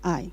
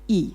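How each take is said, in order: First: The name is said like the word eye. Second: The name is said like the sound ee. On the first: The speaker calls it wrong. "you should know I am not I" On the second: The speaker calls it right. "I am Qilin E"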